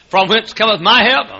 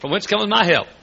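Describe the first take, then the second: First: It stands apart after a clear break. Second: It runs straight on from the clause before.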